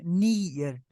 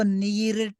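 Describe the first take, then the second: First: The ending sounds like nee-yet. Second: The ending sounds like nee-ret. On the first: The speaker calls it right. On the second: The speaker calls it wrong. "इसको नीरेट नहीं"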